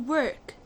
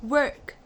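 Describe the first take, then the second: The two takes are said the same way.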